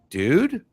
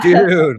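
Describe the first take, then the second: First: It sounds disapproving and questioning. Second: It sounds impressed and approving. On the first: The listener objects to what someone is doing. "just the tone could change the meaning" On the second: The listener thinks something is cool. "just the tone could change the meaning"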